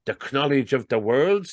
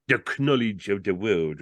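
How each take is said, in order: First: Higher-pitched question rising on WORLD; character asking in wonder; puzzled query. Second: Solemn pronouncement falling on "world"; mock-solemn salesman; great solemnity. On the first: Acted. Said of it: "queried Looney". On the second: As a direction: intone it gravely, as a statement. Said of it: "repeated Fillmore with great solemnity".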